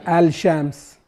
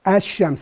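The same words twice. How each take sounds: First: The L sound is clearly pronounced before the Sh. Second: The L sound merges into a doubled Sh sound. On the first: The speaker calls it wrong. "ما نقول الشمس" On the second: The speaker calls it right. "فأدغمنا اللام الشمس على طول الشين"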